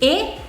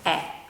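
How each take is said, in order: First: The vowel is closed, with the mouth less open. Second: The vowel is open, with the mouth wider open. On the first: "nel primo caso pronunciamo la E chiudendo di più la bocca" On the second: "nel secondo caso pronunciamo la E aprendo di più la nostra bocca"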